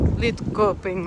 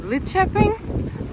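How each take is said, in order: First: Lidköping with a hard K, "lid-koping"; as spelled. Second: Lidköping as "lit-chepping", slow, rising questioningly; attempted local pronunciation. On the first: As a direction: say Lidköping as it looks, K as in keep. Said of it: "you would think it's like". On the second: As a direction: say Lidköping slowly with ch for the K, unsure. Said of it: "It's pronounced". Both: Shown as a demonstration.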